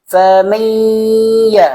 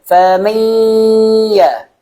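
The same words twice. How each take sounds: No difference in how they are said.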